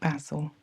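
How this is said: Basil is said the British way.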